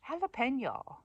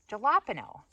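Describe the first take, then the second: First: "jalapeno" as ha-la-PEN-yo; high "jalapeno", stressed on PEN; Spanish-style pronunciation. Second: "jalapeno" with a hard J and no Spanish ñ; loud anglicized "jalapeno", punched on LAP; wrong on purpose. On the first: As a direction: breathe the J of "jalapeno" as H, with ny. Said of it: "a great way to say". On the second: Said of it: "pronounce this wrong on purpose". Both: Shown as a demonstration.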